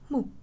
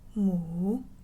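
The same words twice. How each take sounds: First: It is said in the short, sharp fourth tone. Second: It is said in the third tone. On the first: "And lastly, the original tone" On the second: "And number three"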